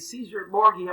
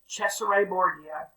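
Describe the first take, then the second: First: The name is pronounced the English way. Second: The name is pronounced the Italian way.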